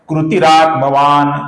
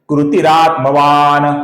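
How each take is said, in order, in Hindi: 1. अंतिम न हल्का है और मुश्किल से बोला जाता है। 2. अंतिम न लगभग पूरा बोला जाता है। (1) "गलत उच्चारण क्या होगा? ... अपूर्ण न का उच्चारण ये गलत है" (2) "उसका हम लगभग पूरा उच्चारण करते हैं"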